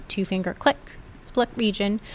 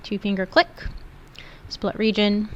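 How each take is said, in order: Both takes have the same delivery.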